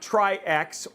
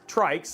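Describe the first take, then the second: First: It is two syllables, ending in ex. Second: It rhymes with bikes, one syllable. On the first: The speaker calls it wrong. "not Tri-X" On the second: The speaker calls it right. "like a tricycle"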